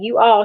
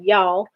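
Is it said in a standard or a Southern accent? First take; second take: standard; Southern. First: It is said in a standard accent. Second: It is said in a Southern accent.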